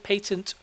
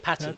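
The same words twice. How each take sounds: First: It is said with a British pronunciation. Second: It is said with an American pronunciation.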